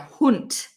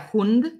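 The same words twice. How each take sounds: First: The word ends with a voiceless t sound. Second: The word ends with a voiced d sound. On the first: The speaker calls it right. "but rather der Hund. Okay, there's a T at the end" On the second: The speaker calls it wrong. "You don't say der Hund"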